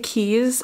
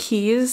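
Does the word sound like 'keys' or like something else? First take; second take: keys; keys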